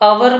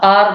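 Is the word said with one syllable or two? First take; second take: two; one. First: The word has two syllables, 'a-wer'. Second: The word has one syllable, 'ar'. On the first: "इसको आप अवर भी बोल सकते हैं, लेकिन रा को साइलेंट ही रखना है" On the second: "या फिर आप आर बोल सकते हैं"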